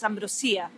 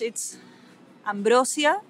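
First: The stress falls on the i syllable. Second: The stress is not on the i syllable. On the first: "we put an accent on the I, so it's Ambrosia" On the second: "In Spanish, it's Ambrosia"

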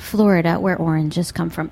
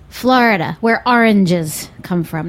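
First: Florida is said the way most Americans say it. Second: Florida is said with a New York accent.

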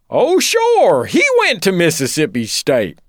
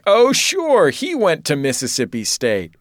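First: It is said in an imitated snobbish character voice. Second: It is said in the speaker's normal voice. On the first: "I should do the voice" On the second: "well, I should do the voice"

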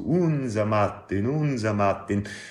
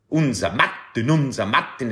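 First: It is said in a soft Carinthian accent. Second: It is said in a harsh Upper Austrian accent.

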